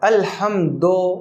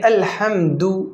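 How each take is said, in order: First: The last vowel is an 'oh' sound. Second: The last vowel is an 'oo' sound. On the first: The speaker calls it wrong. "ये गलत है" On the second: The speaker calls it right. "सही है"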